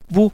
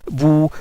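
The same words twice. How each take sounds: First: The vowel is short and clipped. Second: The vowel is drawn out long.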